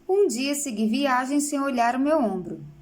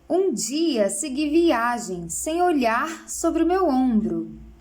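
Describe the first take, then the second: First: Read plainly, without marked stressed syllables. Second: Stressed syllables are emphasized, giving a musical beat.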